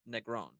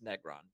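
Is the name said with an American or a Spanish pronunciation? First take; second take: Spanish; American. First: The name is said with a Spanish pronunciation. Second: The name is said with an American pronunciation. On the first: "on my Spanish side, it's Negron" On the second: "on the American side of my family, it's Negron because they don't want to try"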